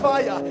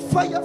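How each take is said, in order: First: The word is drawn out slowly. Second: The word is said short and quick. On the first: The speaker calls it wrong. "you don't say fire" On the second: The speaker calls it right. "It's fast. Don't delay it"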